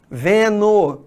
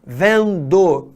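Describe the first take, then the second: First: Vendo said as ve-no; Rio-style vendo ending in -no; dropped D. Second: Vendo with a clear D, ven-do; careful full gerund vendo, ending in -do; D pronounced. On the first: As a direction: leave the D out of vendo. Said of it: "as pessoas tirem o D do gerúndio". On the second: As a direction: sound the D in the last syllable of vendo. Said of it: "ao invés de falando". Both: Shown as a demonstration.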